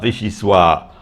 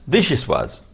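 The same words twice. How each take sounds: First: The word ends without any z sound. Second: The word ends with an audible z sound. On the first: The speaker calls it wrong. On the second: The speaker calls it right.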